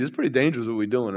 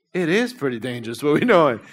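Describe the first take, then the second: First: Soft, low-voiced "It's pretty dangerous what we're doing"; quiet retold warning; hushed. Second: Said in the usual way. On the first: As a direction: say it quietly as the worried brother. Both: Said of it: "I'm like".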